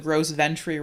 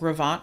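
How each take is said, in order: First: The name is read out with English spelling sounds. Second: The name is said with French sounds, like Grovant. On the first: The speaker calls it wrong. "they inevitably call it the Gros Ventre rock slide" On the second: The speaker calls it right. "this is actually a French word"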